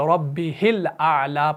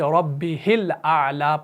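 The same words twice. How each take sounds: First: The vowel after the h is kept short. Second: The same.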